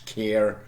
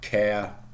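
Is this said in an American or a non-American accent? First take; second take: American; non-American. First: It is said in an American accent. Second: It is said in a non-American accent.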